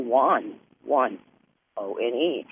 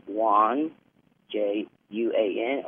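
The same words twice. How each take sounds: First: Juan said like the number one, wun, then spelled O N E. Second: Juan said as wahn, then spelled out letter by letter. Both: Shown as a demonstration. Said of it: "Juan and Juan is the same".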